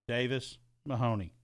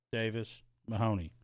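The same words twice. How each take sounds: The two takes are said the same way.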